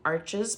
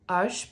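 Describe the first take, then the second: First: The word is pronounced the English way. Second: The word is pronounced the French way.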